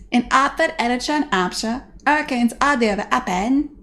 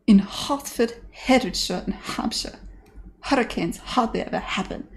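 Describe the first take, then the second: First: "Hertford" as 'ertford, higher and louder, h's dropped; hammed-up Cockney, pushed out louder; louder Cockney repeat. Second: Dropped-H Cockney: "Hertford" as 'ertford, "hurricanes" as 'urricanes; lightly put-on Cockney with dropped h's; Cockney elocution line. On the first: Streamer repeating Eliza's line louder in Cockney. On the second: Streamer quoting Eliza's first Cockney attempt. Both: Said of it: "quote Eliza Doolittle".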